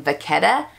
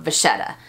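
First: "vachetta" said va-KET-a; "vachetta" with ch as K, stressed middle; hard K sound. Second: "vachetta" said va-SHET-a; "vachetta" the common way, with a soft SH; soft SH sound. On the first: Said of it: "I am known for saying". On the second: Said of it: "not vachetta". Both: Shown as a demonstration.

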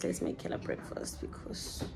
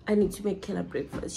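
First: Breathy whisper, no voice. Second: Said in the usual way. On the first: Shown as a demonstration. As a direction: whisper it to yourself. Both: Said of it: "repeats line, second one whispered".

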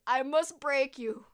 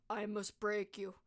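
First: Loud, slow mock-Russian threat; growing angry, imitate a Russian boxer slowly and loudly; forceful, drawn-out villain quote in Russian accent. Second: Slow, stoic mock-Russian threat; restrained, emotionless villain imitation; very serious, stoic. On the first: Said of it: "And he gets all angry". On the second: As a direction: deliver it deadpan in a slow Russian accent. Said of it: "Very serious".

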